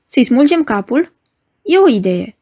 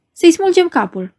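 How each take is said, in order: First: Mildly amused, lightly voiced question. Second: A higher, harsher heckler's call; rough voice from the gallery. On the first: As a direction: weigh the suggestion as if it were reasonable. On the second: Rough gallery heckler calls out to tear off the head. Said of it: "propuse un glas aspru de la galerie". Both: A narrator's reading.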